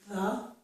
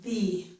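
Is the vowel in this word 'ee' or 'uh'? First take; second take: uh; ee. First: The vowel is a short, relaxed 'uh' sound. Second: The vowel is a long, tense 'ee' sound. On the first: "The vowel again is the same as in but" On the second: "the same vowel sound as in the word see"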